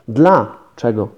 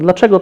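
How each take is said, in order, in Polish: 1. Słowo jest rozdzielone pauzą w środku. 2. Słowo jest wypowiedziane płynnie, bez pauzy. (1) "trzeba by wymówić z przerwą" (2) "można się prześliznąć"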